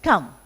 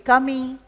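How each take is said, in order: First: The word ends on the M with no vowel. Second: An extra vowel sound is added after the M. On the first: The speaker calls it right. "So it's just come" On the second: The speaker calls it wrong. "You don't say comey"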